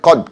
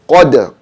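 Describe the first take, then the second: First: The final d stops with no echo. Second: The final d has an echoing bounce. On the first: The speaker calls it wrong. "instead of saying qad" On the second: The speaker calls it right. "It's supposed to be an echo sound after the dal"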